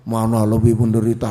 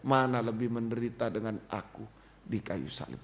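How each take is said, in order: First: Loud, low, booming put-on voice; mock heavenly voice. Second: Low, subdued question that sinks away; inner pressing. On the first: Preacher jokes about hearing God aloud, mock booming voice. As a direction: boom it like a voice from the sky, hammed up. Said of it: "bukan dengar suara ya". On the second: Retold or imitated. Preacher voices Christ's question felt in the heart, low and subdued. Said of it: "Itu tekanan, bukan dengar suara ya".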